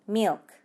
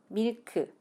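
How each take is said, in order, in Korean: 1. 한 음절이고 앞부분이 강해요. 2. 두 음절이고 각 음절의 세기가 같아요. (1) "앞부분을 조금 더 크고 강하게 milk 이렇게 해서 발음하시면 돼요" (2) "우리말처럼 밀크 이렇게 이음절로 하나하나 강세를 주며 발음하면 안 된다"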